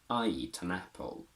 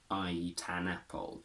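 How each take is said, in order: First: The word 'an' has a weak schwa vowel. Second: The word 'an' has a full, strong vowel. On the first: The speaker calls it right. "We transform the strong a into a weak a" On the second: The speaker calls it wrong. "we don't say an apple"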